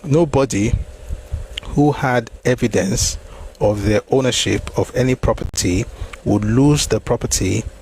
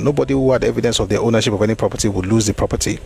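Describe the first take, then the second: First: It is read slowly. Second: It is read at a normal speed.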